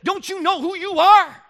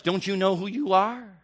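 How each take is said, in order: First: Much higher, slow and loud; preaching climax refrain; fervent refrain. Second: Said in the usual way. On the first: Real, not acted. Refrain to teenager.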